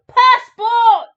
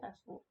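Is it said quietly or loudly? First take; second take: loudly; quietly. First: It is said loudly. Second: It is said quietly.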